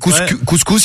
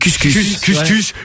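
First: The vowels are a French 'ou'. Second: The vowels are a French 'u'. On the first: The speaker calls it right. "Au lieu de dire couscous" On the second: The speaker calls it wrong. "il dit couscous"

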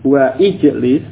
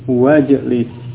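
First: The starting vowel of the second word is pronounced. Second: The words run together without the starting vowel. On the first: The speaker calls it wrong. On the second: The speaker calls it right.

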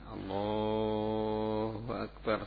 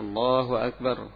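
First: The phrase is stretched out very long. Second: The phrase is said at normal length. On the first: The speaker calls it wrong. "sampai panjang sekali" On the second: The speaker calls it right. "sebagaimana takbir ketika dia takbiratul ihram"

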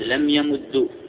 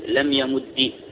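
First: The final consonant is doubled and ends in u. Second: The final consonant is doubled and ends in i.

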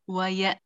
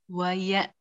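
Both takes have the same delivery.

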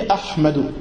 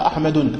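First: The name ends in a plain u vowel. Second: The name ends with an added n sound. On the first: The speaker calls it right. "On dit Ahmadu" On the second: The speaker calls it wrong. "On dit pas Ahmadun abadan"

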